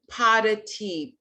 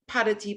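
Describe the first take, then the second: First: It is said at a slower pace. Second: It is said at a faster pace.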